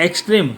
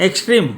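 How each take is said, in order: The two takes are said the same way.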